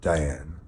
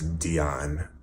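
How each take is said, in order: First: The name is said like die-ann. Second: The name is said like dee-on. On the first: The speaker calls it wrong. "you're gonna hear me say her name wrong" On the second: The speaker calls it right. "I know her name's Dion"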